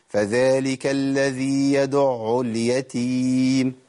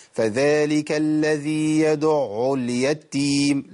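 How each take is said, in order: First: يدع اليتيم with the taa of اليتيم light and single, slow Quran recitation; correct light taa. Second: يدع اليتيم with the taa of اليتيم doubled, a wrong recitation demo. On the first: Quran teacher showing students the correct reading, slow recitation. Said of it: "أقول". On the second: Quran teacher showing students the wrong reading, slow recitation. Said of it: "لا، كده أنا، ده خطأ". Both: Shown as a demonstration.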